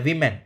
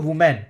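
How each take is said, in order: First: The first syllable sounds like 'wi', as in win. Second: The first syllable sounds like 'woo', as in woman. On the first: The speaker calls it right. "ये वीमेन होता है" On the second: The speaker calls it wrong. "ये कई लोग बोलते हैं इसको वुमेन। ये वुमेन नहीं होता, ये गलत है।"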